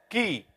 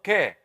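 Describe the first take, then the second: First: The vowel is a close 'ee' sound. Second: The vowel is an open 'eh' sound. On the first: The speaker calls it right. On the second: The speaker calls it wrong. "Not ke"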